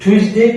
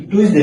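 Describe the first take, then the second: First: "টিউসডে" opened with a breath-puffed ch-like T; correct pronunciation. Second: "টিউসডে" with a plain T at the start; wrong pronunciation. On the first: Teacher modelling the right sound for learners, correct pronunciation. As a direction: lift "টিউসডে", starting it like chyus. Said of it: "ধয়ের মতো". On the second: Teacher showing learners what to avoid, wrong pronunciation. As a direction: say "টিউসডে" with an unsoftened tyus onset. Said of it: "টিউসডে না ভাইয়া". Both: Shown as a demonstration.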